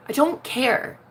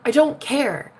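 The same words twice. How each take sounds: The two takes are said the same way.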